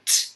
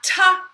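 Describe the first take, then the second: First: The bare consonant is said with no vowel. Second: The consonant is followed by an added vowel. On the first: The speaker calls it right. "so t" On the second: The speaker calls it wrong. "not ta"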